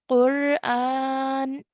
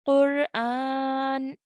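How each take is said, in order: First: The word ends on a bare n consonant. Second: The word ends on a bare n consonant.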